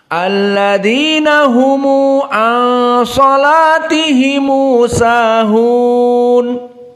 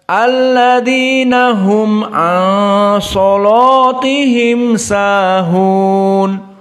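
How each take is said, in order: First: The plural mims end with an added u vowel. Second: The plural mims end bare, with no vowel.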